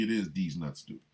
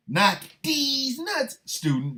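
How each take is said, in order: First: Said in the usual way. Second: "D's nuts" pitched high and drawn out; stress on D'S NUTS. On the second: Pretend. Joke take against plain D student.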